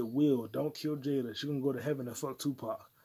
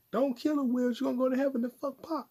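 First: Said in the usual way. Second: High-pitched mock disbelief; incredulous requote. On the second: Podcaster echoing a shocking rap lyric, incredulous high voice. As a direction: repeat it way up high, scandalized.

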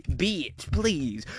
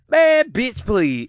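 First: Much softer, lower muttered bitch please; muttered scoff. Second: Loud, scoffing brush-off. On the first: Softly repeating his dismissal of the woman on video. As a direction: say it again under your breath. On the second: Scoffing loud at the woman on the date video. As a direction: wave it off out loud. Mocking the date's demand. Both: Real, not acted.

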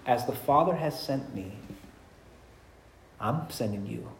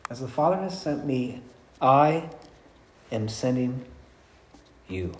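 First: Said in the usual way. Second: "I", "am sending" and "you" each set apart by long pauses, soft; hushed and deliberate, pausing before "you"; spaced-out emphasis. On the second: Shown as a demonstration. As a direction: let every word land alone, slowly and quietly. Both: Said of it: "repeats the line slowly with pauses".

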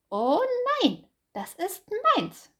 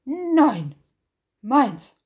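First: High, loud hare protesting das ist meins; hare's high cry. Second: Nein and meins barked very loud, falling; bear's loud shout. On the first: Hase protests to Bär, high and loud. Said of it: "rief Hase". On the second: Bär shouts back at Hase, very loud. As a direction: slam down each word, loud. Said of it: "rief Bär". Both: Acted.

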